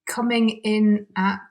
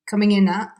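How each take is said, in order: First: The words are separate and the final t is sounded. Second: The words are linked and the final t is dropped.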